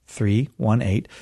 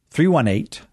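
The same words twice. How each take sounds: First: THREE, ONE, EIGHT spaced out slowly. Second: THREE ONE EIGHT higher and measured; deliberate. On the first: Host repeating the number for callers, slow. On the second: Host giving callers the phone number, deliberate. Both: Shown as a demonstration. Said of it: "Say it slow".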